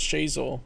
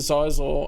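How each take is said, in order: First: The name begins with a 'sh' sound. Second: The name begins with a 'z' sound. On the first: The speaker calls it right. "the only way I know how to pronounce Shizor" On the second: The speaker calls it wrong. "I was pronouncing it Zizor"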